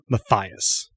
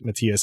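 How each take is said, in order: First: The name is pronounced a non-German way. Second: The name is pronounced the German way. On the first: The speaker calls it right. "It should be uh" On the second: The speaker calls it wrong. "I had mispronounced it uh, because I knew a German person named Matthias"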